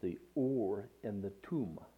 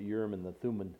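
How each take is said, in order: First: The names are said with Hebrew pronunciation. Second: The names are said with English pronunciation. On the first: The speaker calls it right. "That's how it's actually pronounced in the Hebrew" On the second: The speaker calls it wrong. "We pronounce it Urim and the Thummim"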